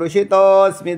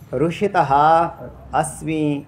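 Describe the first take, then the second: First: The words are run together as one unit. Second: The words are said separately, each in full form.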